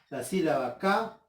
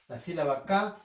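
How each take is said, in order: The two takes are said the same way.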